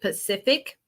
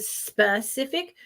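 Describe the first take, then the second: First: The word begins without an s sound. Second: The word begins with an s sound. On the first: "I say Pacific" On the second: "instead of specific"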